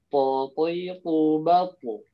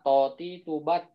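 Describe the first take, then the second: First: The consonant is heavy, with the tongue back raised. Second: The consonant is light, with the tongue back lowered. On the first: The speaker calls it right. "yang benar adalah ... Jadi tebal" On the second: The speaker calls it wrong. "nggak tebal jadinya huruf ta"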